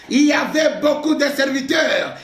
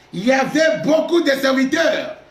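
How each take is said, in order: No difference in how they are said.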